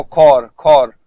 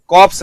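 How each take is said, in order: First: "खौर" like English core, P and S silent. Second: "कॉप्स" with both final P and S pronounced; P and S sounded. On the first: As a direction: say "खौर" drawn out, ending on the R. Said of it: "नहीं तो देखो". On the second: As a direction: say "कॉप्स" like corpse, closing on a P-S cluster. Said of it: "ये कॉप्स नहीं होता". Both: Shown as a demonstration.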